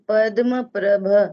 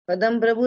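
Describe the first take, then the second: First: It is said as padma prabh, with no final u. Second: It is said as padam prabhu, with a final u. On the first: The speaker calls it right. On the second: The speaker calls it wrong. "पदम प्रभु नहीं"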